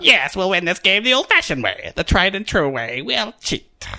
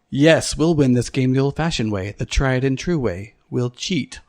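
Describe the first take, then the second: First: It is said in a put-on character voice. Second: It is said in the speaker's ordinary voice.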